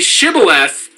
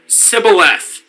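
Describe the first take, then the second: First: The word begins with an 'sh' sound. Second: The word begins with an 's' sound. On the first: The speaker calls it right. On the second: The speaker calls it wrong.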